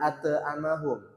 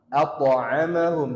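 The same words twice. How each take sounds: First: The consonant becomes a plain glottal stop. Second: The consonant is pressed from the middle throat. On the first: The speaker calls it wrong. "jangan berubah jadi hamzah atau a" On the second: The speaker calls it right. "langsung tekan di tengah tenggorokan"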